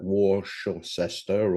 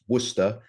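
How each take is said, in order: First: It is pronounced the way some Americans might say it. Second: It is pronounced the local English way. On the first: The speaker calls it wrong. "for those Americans that might choose to pronounce that Worcester" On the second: The speaker calls it right. "it's Worcester ... that's the correct way"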